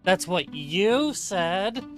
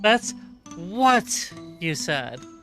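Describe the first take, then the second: First: The stress is on the word you. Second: The stress is on the word what.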